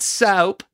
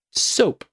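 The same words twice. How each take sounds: First: "soap" said as "sowp"; higher-pitched mocking "sowp" for "soap"; imitated mispronunciation. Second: Said in the usual way. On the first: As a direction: mimic a wrong "soap" with an ow vowel. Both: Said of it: "Not soap".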